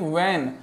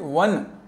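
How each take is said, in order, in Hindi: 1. स्वर 'cat' जैसा सुनाई देता है। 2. स्वर 'cut' जैसा सुनाई देता है। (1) "do not pronounce it like वैन" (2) "pronounce it वन"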